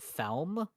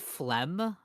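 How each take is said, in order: First: The L sound comes after the vowel. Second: The L sound comes right after the F. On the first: The speaker calls it wrong. "misread as it Felm for years because I mixed up like where the L was" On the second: The speaker calls it right. "the word phlegm"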